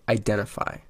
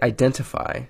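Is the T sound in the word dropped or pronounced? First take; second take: dropped; pronounced. First: The T sound is dropped. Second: The T sound is clearly pronounced. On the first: The speaker calls it right. "say identify" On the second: The speaker calls it wrong. "Stop pronouncing the T ... Don't say identify"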